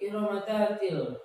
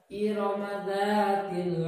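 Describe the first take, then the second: First: The vowel in 'dzat' is clipped short. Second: The vowel in 'dzat' is held two beats. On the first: The speaker calls it wrong. "Jangan baca seperti ini. Cepat aja" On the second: The speaker calls it right. "Dua harokat ketukannya"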